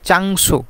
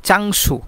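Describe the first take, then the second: Both takes have the same delivery.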